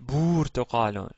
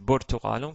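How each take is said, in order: First: A u vowel in the word is held long. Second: The u vowels in the word are short. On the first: The speaker calls it wrong. "si c'était une voyelle longue, on aurait dit burtuqalun" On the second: The speaker calls it right. "Mais non, ici c'est burtuqalun"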